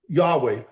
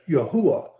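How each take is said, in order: First: The middle has a hard consonant W sound. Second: The middle has an oo vowel sound. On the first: The speaker calls it wrong. "you're pronouncing the W as a consonant, which which gives it the hard W sound" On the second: The speaker calls it right. "It's a U sound"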